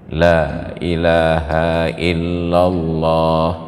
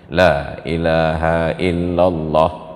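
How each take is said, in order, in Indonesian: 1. Vokal pada Allah dibaca panjang. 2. Vokal pada Allah dibaca pendek. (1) "minimal panjang harakatnya satu alif" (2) "menjadi pendek tanpa mat sama sekali"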